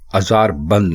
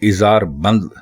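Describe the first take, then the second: First: The word begins with an 'a' vowel. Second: The word begins with an 'i' vowel. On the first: The speaker calls it wrong. "अज़ार बंद नहीं कहते" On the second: The speaker calls it right. "उसको इज़ार बंद कहते हैं"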